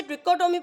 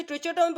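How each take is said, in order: First: Trichotomy said "tri-KO-tomy". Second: Trichotomy said "tri-CHO-tomy". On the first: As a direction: say trichotomy with a hard k sound for "ch". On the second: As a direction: say trichotomy with ch as in "church". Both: Shown as a demonstration. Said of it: "both of pronunciation correct".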